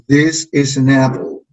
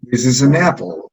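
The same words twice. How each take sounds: First: Slow This is an apple with This and apple leaned on; stressed model sentence. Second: Said in the usual way. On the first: Shown as a demonstration. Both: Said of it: "vamos a decir".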